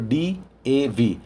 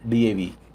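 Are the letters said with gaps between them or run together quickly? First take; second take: with gaps; run together. First: The letters are separated by short pauses. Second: The letters run together quickly without pauses. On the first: The letters are written with abbreviation marks. "थोड़ा सा gap देंगे, अवरोध करेंगे" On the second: The letters are written without abbreviation marks. "Speed में बोल देते हैं"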